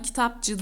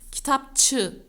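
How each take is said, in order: First: The suffix begins with a voiced 'c' sound. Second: The suffix begins with a voiceless 'ç' sound. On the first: The speaker calls it wrong. "Ben buna kitapçı değil" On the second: The speaker calls it right. "kitapçı diyorum. ... C yumuşak ünsüzü, Ç sert ünsüzüne dönüştüğü"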